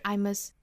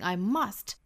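First: Must is weak with a schwa vowel. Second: Must is stressed with a full vowel. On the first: "如果弱读的话，就是 I must, 啊，弱读成 schwa sound" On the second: "如果说要重读的话呢"

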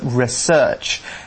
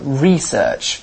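First: The stress is on the second syllable. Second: The stress is on the first syllable. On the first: This is the American way of saying it. "In the US, they put the emphasis on the search part" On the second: This is the British way of saying it. "We put the emphasis on the E"

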